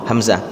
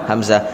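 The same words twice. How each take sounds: Both takes have the same delivery.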